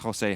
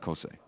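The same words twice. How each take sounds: First: The first sound is harsh and throaty. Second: The first sound is soft and plain. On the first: "I like saying it like that" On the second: "but I think it's Jose"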